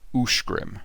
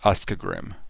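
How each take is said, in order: First: The first syllable ends with an 'sh' sound. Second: The first syllable ends with an 'sk' sound. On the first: The speaker calls it right. "U S C would be Ush" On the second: The speaker calls it wrong. "not Uskagrim"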